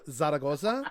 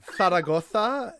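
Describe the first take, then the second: First: The z's are said like s, non-Spain style. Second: The z's are lispy like th, Spain style.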